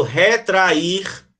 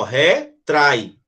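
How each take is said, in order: First: "retrair" slowly in three beats, re-tra-IR; separated vowels. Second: "Retrai" in two beats, re, trai; one-syllable diphthong. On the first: Teacher contrasts it with retrai, separated vowels in "retrair". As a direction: say "retrair" with the A parted from a stressed I. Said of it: "ele vai separar do I". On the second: Teacher explains it doesn't separate, "trai" as one syllable in "Retrai". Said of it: "Porque é uma sílaba só". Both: Shown as a demonstration.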